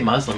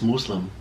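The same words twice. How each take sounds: First: It is said the anglicized way. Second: It is said the way its own speakers say it. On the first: The speaker calls it wrong. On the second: The speaker calls it right.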